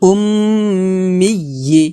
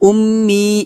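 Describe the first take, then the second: First: The word ends with a doubled y and final i. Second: The word ends short, without the doubled y sound. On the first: The speaker calls it right. "বলতে হবে উম্মিয়্যি" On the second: The speaker calls it wrong. "এটা কিন্তু বলা যাবে না"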